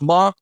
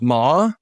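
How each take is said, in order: First: The pitch stays high and level. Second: The pitch rises from middle to high. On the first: It means mother. "first tone is ma, and that means mother" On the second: It means hemp. "Second tone is ma, your voice goes up"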